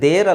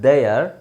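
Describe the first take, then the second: First: The vowel is a short plain 'e' sound. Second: The vowel glides into a drawn-out 'ay-er' sound. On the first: The speaker calls it wrong. "Actually ದೇರ್ ಅಲ್ಲ" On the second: The speaker calls it right. "It's ದೇಯರ್"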